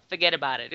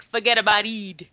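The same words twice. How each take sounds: First: Said in the usual way. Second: Put-on mangled New York through a British accent; British attempting New York accent. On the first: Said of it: "one of the phrases". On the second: Co-host mimicking the film's accent lesson, British-tinged botched New York accent. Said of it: "attempting to do a British accent, attempting to do a New York accent".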